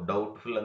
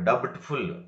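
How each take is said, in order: First: The b is silent in the word. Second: The b sound is pronounced in the word. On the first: The speaker calls it right. "ಡೌಟ್ಫುಲ್ ಅಂತ pronunciation ಮಾಡಬೇಕು" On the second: The speaker calls it wrong. "Not ಡಬ್ಟ್ಫುಲ್"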